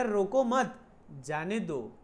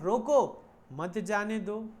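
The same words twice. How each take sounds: First: Group "रोको मत", break, drop on "जाने दो"; pause after मत. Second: Loud held "रोको", break, then "मत जाने दो" together; pause after रोको. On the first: Teacher voicing what sender said to let it go, pause after "मत". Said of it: "ऐसा बोला होगा तो". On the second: Teacher voicing the other possible order to stop it, pause after "रोको". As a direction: punch "रोको" alone, join "मत" to "जाने दो". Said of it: "उसने बोला होगा". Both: Shown as a demonstration.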